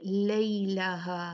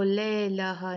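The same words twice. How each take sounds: First: Slow "लैलाहा" with a clear "ay" glide; "लैलाहा" recited with gliding first vowel; leen diphthong. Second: "लैलाहा" with a single long "ae"; "लैलाहा" as "lae-laa-haa", no diphthong; wrong flat vowel. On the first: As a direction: sound the y in "लैलाहा", "lay-laa-haa". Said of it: "लई लीन है". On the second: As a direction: drop the y glide in "लैलाहा". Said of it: "नहीं पढ़ेंगे आप". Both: Shown as a demonstration.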